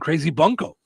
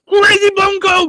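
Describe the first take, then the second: First: The phrase is said in a calm, level voice. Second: The phrase is shouted loudly like an announcement.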